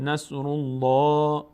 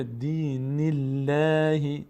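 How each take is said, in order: First: "الله" long with dark, rounded L; full heavy Allah. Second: Slow "الله" with light L; thin light Allah. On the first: Teacher contrasting after damma, heavy L. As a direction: fill the mouth on "الله". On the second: Teacher contrasting after kasra, thin L. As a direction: keep "الله" thin and drawn out. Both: Shown as a demonstration.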